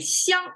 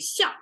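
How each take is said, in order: First: The syllable has a flat, level tone. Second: The syllable has a falling tone. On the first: It means mutually. "That's more um, flat" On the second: It names the action of assessing. "the falling tone"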